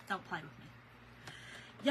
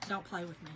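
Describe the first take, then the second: First: "Don't play with me" whispered slowly. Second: Said in the usual way. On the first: Retold or imitated. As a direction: breathe it slowly like a soft threat. Repeats her warning to exterminator.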